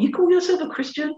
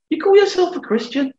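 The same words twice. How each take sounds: First: High sneering taunt from the devil; mock the believer as the accuser would; high, scornful accuser's question; accusing devil. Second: Very high, mocking accuser's challenge; preacher mimicking the devil's sneer, high and pointed; scornful devil. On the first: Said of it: "he comes in a different". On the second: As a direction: throw the question back as a taunt. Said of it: "he doesn't speak in the same way".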